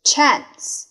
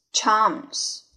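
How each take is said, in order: First: "Chance" with the flat "a" of "cat"; first reading of Chance. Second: "chance" with a long "ah" vowel; second reading of chance. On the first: Teacher models the word for learners, "Chance" with the vowel of "cat". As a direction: say "Chance" with an American short a. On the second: Teacher shows the other reading, "chance" said CHAHNS. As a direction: say "chance" as CHAHNS, British style. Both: Shown as a demonstration. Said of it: "第二种读法".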